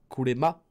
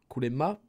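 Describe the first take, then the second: Both takes have the same delivery.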